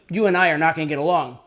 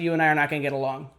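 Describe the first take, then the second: First: It is delivered eagerly, pushing for a reaction. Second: It is tossed off lightly and casually. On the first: The speaker is too invested in the reaction. The speaker calls it wrong. "if you seem to care too much" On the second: The speaker does not care about the reaction. The speaker calls it right. "You could throw off a line like"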